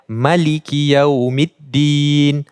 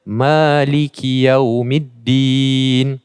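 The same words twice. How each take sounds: First: The vowel after the m is short. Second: The vowel after the m is long. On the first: "tanpa mat" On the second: "dengan mat kepada pada mimnya"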